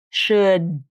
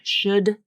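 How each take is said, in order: First: The final D is voiced but not released. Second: The final D is fully voiced and released. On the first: The speaker calls it right. "She does not release the D" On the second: The speaker calls it wrong. "put the actual true D sound in there"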